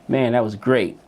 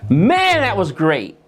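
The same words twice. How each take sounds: First: It is said flatly, in a monotone. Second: It is said with lively, varied pitch and feeling. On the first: The speaker shows no real feeling about it. The speaker calls it wrong. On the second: The speaker truly feels it was great. The speaker calls it right.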